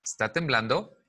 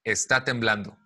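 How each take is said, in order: First: "Está temblando" asked, rising at the end; question intonation. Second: "Está temblando" falling at the end; statement intonation. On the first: Teacher shows class a different tone, rising question. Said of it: "lo digo con un tono diferente". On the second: Teacher contrasts intonation for class, falling statement. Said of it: "En lugar de decir". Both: Shown as a demonstration.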